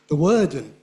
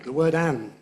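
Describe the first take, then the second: First: The word 'and' is reduced and blended in. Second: The word 'and' is said fully and clearly. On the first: The speaker calls it wrong. "If you use the weak form" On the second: The speaker calls it right. "We don't use the weak form there"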